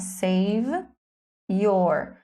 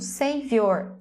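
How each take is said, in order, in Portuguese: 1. Cada palavra é dita separadamente, uma por uma. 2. As duas palavras são ligadas suavemente. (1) "No ensino tradicional, você aprende palavra por palavra" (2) "você já se acostuma a falar tudo junto"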